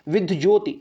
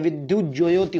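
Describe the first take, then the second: First: "विद्य ज्योति" clipped to vid-joti; wrong form demonstrated. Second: "विद्युत ज्योति" spread out as vid-yu-jyoti; correct form demonstrated. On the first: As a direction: say "विद्य ज्योति" without the yu sound. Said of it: "ये वाली गलत होती है". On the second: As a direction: sound every syllable of "विद्युत ज्योति". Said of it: "विद्युत ज्योति होता है". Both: Shown as a demonstration.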